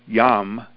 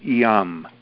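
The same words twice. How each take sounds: First: The word starts directly on the Y sound. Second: An E-like vowel comes before the Y sound. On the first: "You can say it as strictly yum" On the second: "you can exaggerate yum, yum, yum. There's like an E in front of it"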